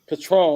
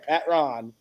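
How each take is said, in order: First: It is said in a standard way. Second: It is said the Baltimore way, as Pat Ron.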